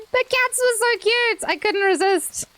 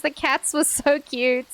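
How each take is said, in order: First: Cats were so cute, said high and gushing. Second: Said in the usual way. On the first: Real, not acted. Streamer explaining her scream to chat, high gushing. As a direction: relive the cuteness with a raised, gushing voice. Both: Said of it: "I had to scream".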